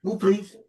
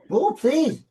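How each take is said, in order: First: Firm, patient ask to the dog; polite request. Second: Higher, impatient repeat of the request; insistent repeat. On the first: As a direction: ask the dog nicely but firmly. Asking the dog to move. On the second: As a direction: push harder, losing patience with the dog. Dog still not moving. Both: Real, not acted.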